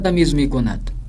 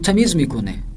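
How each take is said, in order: First: The verb ends in a d sound. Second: The verb ends in an e vowel. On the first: This is the written form read from a text. "न" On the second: This is the everyday spoken form. "यानी दाल को हे में तब्दील कर देते हैं"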